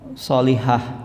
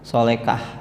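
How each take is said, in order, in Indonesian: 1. Suku kata terakhir berbunyi h. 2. Suku kata terakhir berbunyi k.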